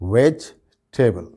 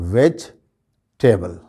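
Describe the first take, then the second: The two takes are said the same way.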